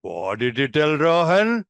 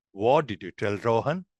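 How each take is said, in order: First: Drawn-out, teasing question rising at the end; playful mischief-finding. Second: Low, soft senior asking a plain question; matter-of-fact. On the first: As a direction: ask a peer slowly, as if catching mischief. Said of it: "similar age finding some mischief". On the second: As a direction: ask it as a senior, matter-of-factly. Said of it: "a senior asking matter of fact". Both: Shown as a demonstration.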